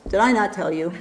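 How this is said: It sounds scolding and exasperated. The listener is being reproached for forgetting. The speaker calls it wrong. "It's not the tone here is not, ... It's not like that mother thing that we get sometimes"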